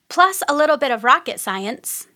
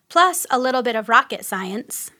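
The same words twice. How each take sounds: First: It is said in a bubbly, fun way. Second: It is said in a plain, neutral way.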